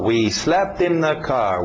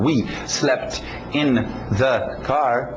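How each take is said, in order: First: The words run together with no gaps. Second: The words are said separately with small gaps. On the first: The speaker calls it right. "Uma palavra entrando na outra" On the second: The speaker calls it wrong. "Não"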